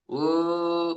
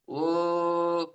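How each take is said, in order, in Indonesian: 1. Vokalnya teredam, dengan rahang hampir tertutup. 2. Vokalnya teredam, dengan rahang hampir tertutup.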